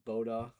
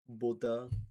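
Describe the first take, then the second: First: It is said the American way. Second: It is said with a French accent.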